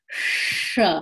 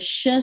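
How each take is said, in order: First: A retroflex sh sound is made. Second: A plain sh sound is made. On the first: The speaker calls it right. "This S is a retroflex S" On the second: The speaker calls it wrong. "It is not a regular sh sound"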